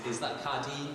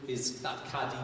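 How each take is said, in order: Both takes have the same delivery.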